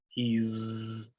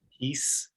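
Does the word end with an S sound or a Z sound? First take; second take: Z sound; S sound. First: The word ends with a buzzing Z sound. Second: The word ends with a hissing S sound. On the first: The speaker calls it right. "this will be a Z sound, like in cheese" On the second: The speaker calls it wrong. "Not he's"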